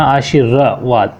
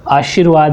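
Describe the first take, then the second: First: "आशीर्वाद" drawn out slowly, r sounded separately; syllable breakdown. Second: Said in the usual way. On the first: Shown as a demonstration. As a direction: stretch "आशीर्वाद" as aa-shee-ra-vaad. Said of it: "जहाँ र बोला जाता है". ("आशीर्वाद" धीरे तोड़कर, र अलग) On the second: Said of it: "आशीर्वाद ध्यान रखना".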